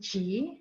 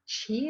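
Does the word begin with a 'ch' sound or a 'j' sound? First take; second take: j; ch. First: The word begins with a 'j' sound. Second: The word begins with a 'ch' sound. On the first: The speaker calls it right. "This is actually G, J I" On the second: The speaker calls it wrong. "it's actually not pronounced Qi like we think a Qigong"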